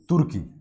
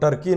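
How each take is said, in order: First: It is said like Hindi 'Turki'. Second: It is said like English 'Turkey'. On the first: "Hindi में हम लोग ऐसे पढ़ते हैं ना, टी से शुरू है तो तुर्की करके पढ़ते हैं" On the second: "आप ऐसे पढ़ेंगे तो टर्की"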